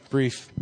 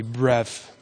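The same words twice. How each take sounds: First: Said in the usual way. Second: "bref" with a short e; joke mispronunciation. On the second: Shown as a demonstration. Preacher joking about his poor English, mispronouncing "bref". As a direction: say "bref" as a deliberate slip for brief. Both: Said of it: "English is not my forte".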